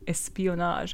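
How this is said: It is said with a French-sounding accent.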